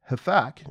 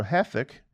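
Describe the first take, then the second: First: Hathach said huh-THOCK with an ah vowel; first pronunciation. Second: Hathach said HATH-ick, stress on the first syllable; corrected pronunciation. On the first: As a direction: say Hathach with a broad ah at the end. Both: Shown as a demonstration. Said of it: "or Hathach".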